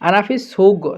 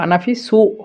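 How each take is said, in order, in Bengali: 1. শেষ শব্দটি একটি শক্ত g ধ্বনি দিয়ে শেষ হয়। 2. শেষ শব্দটি একটি glottal stop দিয়ে শেষ হয়। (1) "গয়ন হিসেবে যদি আমরা ব্যবহার করি তখন বলবো" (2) "যদি কফটাকে হামজা হিসাবে ব্যবহার করি তাহলে বলবো"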